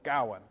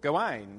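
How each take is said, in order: First: The stress is on the first syllable. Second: The stress is on the last syllable. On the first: It fits alliterative verse. "the emphasis is on the first syllable" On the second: It fits rhyming French-derived verse. "the emphasis tends to be on the last syllable"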